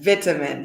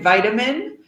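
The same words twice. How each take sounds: First: It is said in a British accent. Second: It is said in an American accent.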